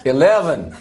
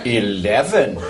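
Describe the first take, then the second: First: Badly faked American accent; attempted American accent. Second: Drawn-out put-on English accent; attempted English accent. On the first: Scot trying American for the voice-activated lift, dodgy American accent. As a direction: have a poor go at American, sounding rather Irish. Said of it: "You need to try an American accent". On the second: Man outdoing his friend for the lift, affected English accent. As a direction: show off your English accent. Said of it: "Try an English accent, right?".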